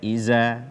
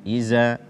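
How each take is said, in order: Both takes have the same delivery.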